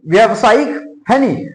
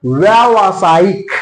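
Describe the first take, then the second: First: व्यवसायिक said slowly with short vya-va; wrong form read slowly. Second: व्यावसायिक slow, each syllable drawn out, long आ after व; correct pronunciation shown. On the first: Teacher reads the wrong व्यवसायिक slowly. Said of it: "देखो ये क्या लिखा है". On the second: Teacher slowly pronounces व्यावसायिक for students. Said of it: "इसका सही उच्चारण करते क्या होगा". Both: Shown as a demonstration.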